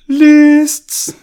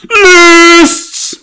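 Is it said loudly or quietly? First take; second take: quietly; loudly. First: It is said more quietly. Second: It is screamed very loudly.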